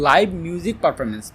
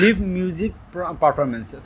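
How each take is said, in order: First: 'Live' is said with a long 'ai' like 'five'. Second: 'Live' is said with a short 'i' like 'give'. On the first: The speaker calls it right. "এটা হবে লাইভ music performance" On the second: The speaker calls it wrong. "লিভ music হবে না"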